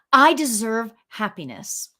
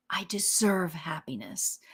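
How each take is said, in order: First: Said in the usual way. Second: Whispered affirmation. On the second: Shown as a demonstration. Host whispering an affirmation to her viewers, soft and unvoiced. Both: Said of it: "reciting sample affirmation".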